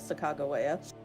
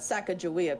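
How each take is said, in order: First: The name has its original, non-Americanized pronunciation. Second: The name has the common Americanized pronunciation. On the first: "the actual pronunciation of her name" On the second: "the Americanized"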